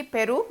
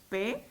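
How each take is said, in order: First: Said in the usual way. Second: "Perú" split in two, softly, with a long gap; syllable by syllable. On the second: Shown as a demonstration. Teacher divides the word for students, "Perú" syllable by syllable. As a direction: break "Perú" into separate syllables, quietly. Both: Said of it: "la dividimos en sílabas".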